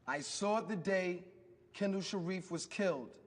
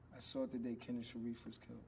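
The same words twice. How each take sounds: First: It is said loudly. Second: It is said quietly.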